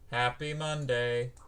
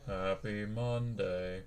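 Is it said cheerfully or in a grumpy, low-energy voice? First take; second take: cheerfully; grumpy. First: It is said in a cheerful, normal voice. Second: It is said in a grumpy, low Garfield voice.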